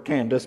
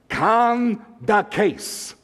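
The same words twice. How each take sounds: First: The name is said with a familiar English pronunciation. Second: The name is said with a Greek pronunciation. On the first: "You might prefer Candace" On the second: "I looked it up in the Greek text"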